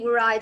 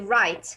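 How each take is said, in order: First: A W sound is heard at the start. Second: No W sound is heard at the start. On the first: The speaker calls it wrong. "it will not be" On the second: The speaker calls it right. "it will be right. Why? Because W here is silent"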